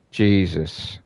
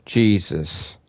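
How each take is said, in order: Both takes have the same delivery.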